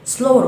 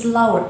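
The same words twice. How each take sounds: First: "slower" with a long O, as SLOH-er; "slower" pronounced SLOH-er; correct slower. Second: "slower" with an OW vowel, as SLAU-er; "slower" mispronounced SLAU-er. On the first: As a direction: say "slower" rhyming with "grower". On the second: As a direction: say "slower" wrongly, rhyming with "flower". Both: Shown as a demonstration. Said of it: "وليس slower".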